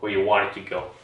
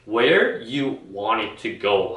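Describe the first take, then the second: First: The word where is unstressed. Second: The word where is stressed. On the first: The speaker calls it right. "강세가 죽죠. Where 할 때는요" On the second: The speaker calls it wrong. "Where에 where you want it to go 하는 게 아니고"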